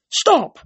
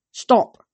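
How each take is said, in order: First: High, loud, falling cry; urgent command. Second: Slightly raised, commanding voice; firm command. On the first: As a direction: shout it as a desperate order. Desperate repeated command to water. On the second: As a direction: order it firmly, without a full shout. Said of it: "I told the water". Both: A narrator's reading.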